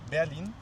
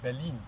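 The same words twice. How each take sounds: First: The vowels do not sound like 'bear' and 'lean'. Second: The vowels sound like 'bear' and 'lean'. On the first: The speaker calls it wrong. "don't pronounce it Berlin" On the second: The speaker calls it right. "like the drug lean. ... and the bear"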